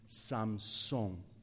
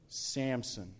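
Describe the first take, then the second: First: The name is said with Spanish pronunciation. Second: The name is said with English pronunciation. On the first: "Or in Spanish, it would be Samson" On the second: "this is a story of Samson"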